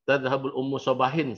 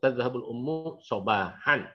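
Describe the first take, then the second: First: The last word ends in -in. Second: The last word ends in -an. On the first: The speaker calls it wrong. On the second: The speaker calls it right. "Jadi Anda harus baca"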